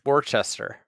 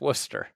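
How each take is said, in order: First: The name is said as its spelling looks. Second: The name is said unlike its spelling looks. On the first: The speaker calls it wrong. "Some people look that up and think it's Worcester" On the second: The speaker calls it right. "but it's Worcester"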